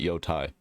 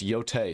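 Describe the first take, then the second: First: The last syllable sounds like 'tie'. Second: The last syllable sounds like 'tay'. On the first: The speaker calls it wrong. "everybody stop pronouncing it Yotai" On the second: The speaker calls it right. "It's pronounced Yotei"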